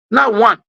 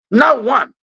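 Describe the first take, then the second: No difference in how they are said.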